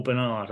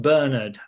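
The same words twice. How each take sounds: First: Bernard said as ber-NARD; second-syllable stress. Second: Bernard said as BUR-nud; first-syllable stress. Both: Shown as a demonstration. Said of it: "I don't know if it's Bernard or Bernard".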